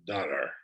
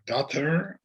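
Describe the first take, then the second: First: "daughter" in a British way, a little quieter and quicker. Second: "daughter" in an American way, with a rising ending. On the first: Contrasting British and American English, said the British way. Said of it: "como en el Reino Unido dicen". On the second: Contrasting American and British English, said the American way. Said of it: "En lugar de decir". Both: Shown as a demonstration.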